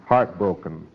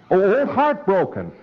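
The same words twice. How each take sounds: First: Said in the usual way. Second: Light up when you hear Heartbroken; excited recognition. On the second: Acted. Preclear lights up at horse name.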